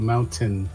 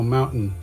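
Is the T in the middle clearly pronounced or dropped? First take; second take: clearly pronounced; dropped. First: The middle T sound is pronounced clearly and strongly. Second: The middle T sound is dropped or swallowed. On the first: This is the carefully enunciated way. "he announces his teas pretty strongly" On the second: This is the everyday casual way. "I just go Mountain"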